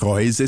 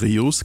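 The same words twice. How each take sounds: First: It is pronounced like a German word. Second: It is pronounced like an English word. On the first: The speaker calls it wrong. "Nicht Reuse" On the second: The speaker calls it right. "sondern tatsächlich Reuse, kommt aus dem Englischen"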